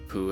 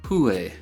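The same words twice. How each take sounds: First: The pitch rises from low to high. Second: The pitch falls from high to low. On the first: It might mean two. "goes from low to high" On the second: It might mean one. "goes from high to low"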